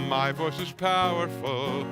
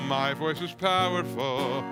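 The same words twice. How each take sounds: The two takes are said the same way.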